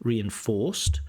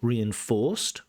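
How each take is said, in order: First: The stress is on the last syllable. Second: The stress is on the last syllable.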